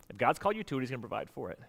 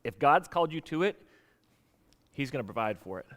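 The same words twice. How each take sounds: First: Repeated softer, stress moved onto called; softer repeated principle. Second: Said in the usual way. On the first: Shown as a demonstration. Pastor repeating the principle so it sinks in, softer with called stressed. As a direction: lean on called, let the rest drop quiet. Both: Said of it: "here's the principle you gotta remember".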